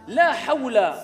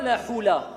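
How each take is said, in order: First: The word is said with an 'aw' diphthong. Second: The word is said with a plain 'oo' vowel. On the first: The speaker calls it right. "La hawla, ce n'est pas la hula" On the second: The speaker calls it wrong. "ce n'est pas la hula"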